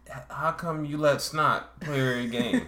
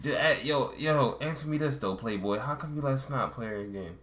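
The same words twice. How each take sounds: First: Slow, higher mock dimwit; imitation slow-witted guy asking a question; dumb voice. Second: Mock Baltimore street questioning, starting high; retry it as loose Baltimore street talk; lightly imitated Baltimore accent, easing down. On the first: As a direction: drag the question out in a put-on stupid voice. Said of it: "his voice sounds dumb". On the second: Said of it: "a Baltimore accent".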